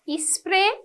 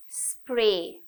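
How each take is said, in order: First: An extra vowel comes before the s sound. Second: The word starts directly with the s sound. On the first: The speaker calls it wrong. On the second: The speaker calls it right. "That's how you say it"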